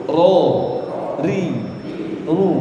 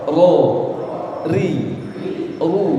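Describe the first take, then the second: The two takes are said the same way.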